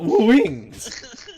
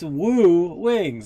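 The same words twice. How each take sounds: First: The word wings has a buzzing z sound. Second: The word wings is said plainly. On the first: The speaker calls it wrong. "not woo wings ... like there's Z's in the word wings" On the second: The speaker calls it right. "it's woo wings"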